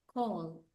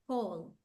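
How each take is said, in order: No difference in how they are said.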